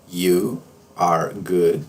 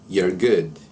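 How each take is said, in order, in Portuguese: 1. 'You are' é dito como duas palavras completas. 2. 'You are' é comprimido em uma única sílaba.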